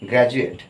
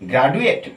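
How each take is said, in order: First: The middle consonant is a j sound. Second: The middle consonant is a plain d sound. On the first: The speaker calls it right. "এটা বর্গেন্দ্র উচ্চারণ হবে" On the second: The speaker calls it wrong. "না"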